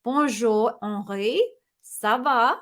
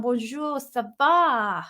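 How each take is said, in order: First: Slower, more careful French accent; second-try French accent. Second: Clumsy French accent; terrible French accent. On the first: Host redoing the greeting for the Paris viewer, careful French accent. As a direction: have another go at a French accent. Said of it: "That was terrible ac". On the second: British host greeting a viewer from Paris, bad French accent. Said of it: "that was terrible, s-, um, accent". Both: Real, not acted.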